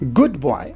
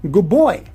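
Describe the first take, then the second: First: Good ends in a clear d sound. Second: Good ends in a b sound.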